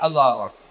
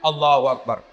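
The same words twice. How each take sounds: First: It is said sleepily, without energy. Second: It is said with excessive, loud enthusiasm.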